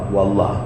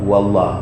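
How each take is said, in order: The two takes are said the same way.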